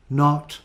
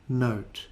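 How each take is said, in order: First: "Not" with a short, open /ɒ/ as in hot; short o vowel. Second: "note" with the gliding /əʊ/ as in go; long o diphthong. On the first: Teacher contrasting vowel sounds for learners, careful short o. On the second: Teacher contrasting vowel sounds for learners, careful long o. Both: Shown as a demonstration. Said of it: "practice these sounds and spellings".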